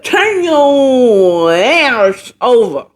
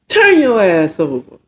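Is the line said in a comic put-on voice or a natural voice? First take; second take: comic; natural. First: It is said in a comic put-on character voice. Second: It is said in a more natural, plain voice. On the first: The speaker calls it wrong. "that was sounding like Boss Hog from Dukes of Hazzard" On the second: The speaker calls it right. "That's more like what he said"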